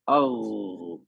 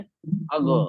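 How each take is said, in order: First: The final sound is held and continues smoothly. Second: The final sound ends with a short bouncing release. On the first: The speaker calls it right. "आवाज कंटिन्यू है ना" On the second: The speaker calls it wrong. "कलकला कर दिया"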